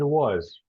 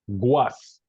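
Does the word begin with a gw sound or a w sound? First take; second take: w sound; gw sound. First: The word begins with a plain w sound. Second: The word begins with a gw sound. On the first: The speaker calls it right. "We say something like it was" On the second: The speaker calls it wrong. "sometimes we say guas, but that's not how it is"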